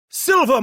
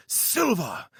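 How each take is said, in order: First: Much higher, loud theatrical "Silver"; booming fake British. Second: Fake British. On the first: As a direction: proclaim "Silver" like a stage Brit. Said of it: "The British accent returned, and the volume went up considerably". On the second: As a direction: land "silver!" with a knowing flourish. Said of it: "The British accent returned".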